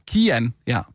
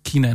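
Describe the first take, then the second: First: Kian with no n, KI-an; corrected name Kian. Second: Kinan with an n in the middle, KI-nan; wrong name Kinan. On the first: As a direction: repeat the corrected Kian, stress on the first syllable. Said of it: "Det er Kian". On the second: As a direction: say it wrongly as Kinan, stress on the first syllable. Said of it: "Ja, jamen, det udtales Ki". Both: Shown as a demonstration.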